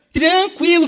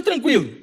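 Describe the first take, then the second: First: TRANQUILO drawn out, high and emphatic; emphatic repeat. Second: Said in the usual way. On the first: Real, not acted. Preacher marvelling at how calm his friend was, emphatic repeat of TRANQUILO. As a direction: stretch "Tranquilo" out, pitched well up.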